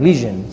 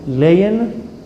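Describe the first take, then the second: First: It is said 'lee-zhun', with a 'zh' sound. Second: It sounds like 'lion', with no 'zh' sound. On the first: The speaker calls it right. "You also pronounce it lesion" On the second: The speaker calls it wrong. "I think you say it in English"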